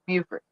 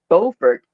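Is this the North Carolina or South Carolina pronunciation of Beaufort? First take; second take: South Carolina; North Carolina. First: It uses the South Carolina pronunciation of the name. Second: It uses the North Carolina pronunciation of the name. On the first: The speaker is from South Carolina. "we say Beaufort" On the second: The speaker is from North Carolina. "they pronounce the city's name as Beaufort"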